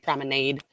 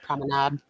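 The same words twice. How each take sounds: First: It is said with a Midwestern pronunciation. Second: It is said with a non-Midwestern pronunciation. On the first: "In the Midwest, people probably say promenade" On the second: "instead of promenade"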